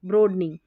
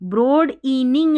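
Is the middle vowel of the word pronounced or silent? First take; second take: silent; pronounced. First: The middle vowel is nearly silent. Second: The middle vowel is clearly pronounced. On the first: The speaker calls it right. "ई एक तरीके से देखिए बिल्कुल silent सा हो जाएगा" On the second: The speaker calls it wrong. "ब्रोड इनिंग नहीं बोलेंगे"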